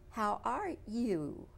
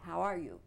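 First: It is said in a local Texan accent. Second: It is said in a plain non-Texan accent. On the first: "I'll try to emulate them" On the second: "Rather, I say"

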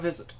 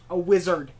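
First: It is said with a German accent. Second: It is said with a plain accent. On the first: The speaker calls it wrong. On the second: The speaker calls it right.

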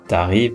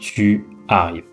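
First: Tu is contracted, said as t'arrives. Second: Tu is said in full before arrives. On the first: This is casual spoken French. "on ne fait pas la contraction avec le tu. Donc on ne dit pas" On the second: This is the textbook form. "mais on dit"

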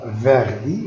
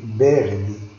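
First: The word begins with a v sound. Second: The word begins with a b sound. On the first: The speaker calls it wrong. "On ne dit pas verdi" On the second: The speaker calls it right. "mais verdi. Verdi. V, ça se prononce B"

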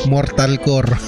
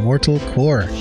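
First: The name is said with a Tagalog accent. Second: The name is said without a Tagalog accent. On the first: "Pag Tagalog ka at may accent ka"

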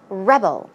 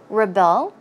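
First: The stress is on the first syllable. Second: The stress is on the second syllable. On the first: It is the noun, meaning a person who resists control. "And as a noun, you can be a 반항아" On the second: It is the verb, meaning to resist control. "Verb form once again, that is to rebel, as I said. The stress goes on the second syllable"

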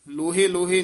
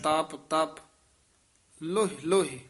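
First: Each word ends with an added e vowel. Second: Each word ends plainly as loh. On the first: The speaker calls it wrong. "ਲੋਹੇ ਲੋਹੇ ਨਹੀਂ ਕਹਿਣਾ" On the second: The speaker calls it right. "ਲੱਲੇ ਔਂਕੜ ਹੈ"

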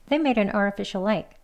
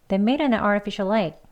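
Both takes have the same delivery.

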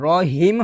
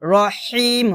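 First: The h is a plain, light breath. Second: The h is pressed from mid-throat. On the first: The speaker calls it wrong. "রহিম হবে না" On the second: The speaker calls it right. "এটা হলকের মাঝখান থেকে চাপ দিয়ে বের করতে হবে"

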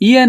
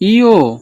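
First: The name ends in an 'e' vowel sound. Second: The name ends in an 'o' vowel sound. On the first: The speaker calls it wrong. "ইয়ে না কিন্তু" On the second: The speaker calls it right. "আবার বলছি ইও"

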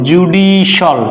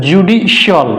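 The two takes are said the same way.

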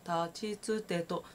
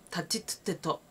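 First: The syllables are said softly and gently. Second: The syllables are said hard and forcefully. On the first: The speaker calls it right. "ちょっと言っただけで立ちつてとは立ちつてとに聞こえるんです。" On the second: The speaker calls it wrong. "って言わない。"

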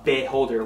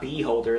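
First: The first syllable has a short, reduced vowel. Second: The first syllable sounds like the word bee. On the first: The speaker calls it right. "It's a beholder, one E after the B" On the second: The speaker calls it wrong. "not beholder, like no actual beehives"

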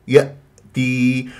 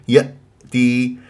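Both takes have the same delivery.

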